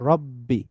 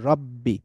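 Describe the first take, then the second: Both takes have the same delivery.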